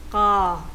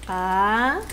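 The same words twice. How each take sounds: First: The k is tense and unaspirated. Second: The k is plain, without breath or tension.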